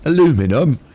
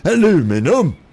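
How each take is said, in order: First: It is said the American way, four syllables. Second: The same.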